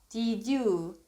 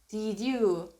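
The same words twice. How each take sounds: Both takes have the same delivery.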